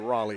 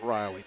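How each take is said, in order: First: The name is pronounced like the city Raleigh. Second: The name is pronounced like the name Riley. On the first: The speaker calls it right. "It's really Raleigh" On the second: The speaker calls it wrong. "It's not Riley"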